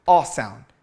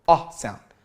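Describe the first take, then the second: Both takes have the same delivery.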